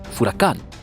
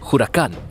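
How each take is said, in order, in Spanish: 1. La palabra empieza con un sonido f. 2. La palabra empieza con un sonido h aspirada. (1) "furacán con F" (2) "huracán con J"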